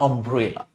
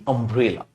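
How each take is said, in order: Both takes have the same delivery.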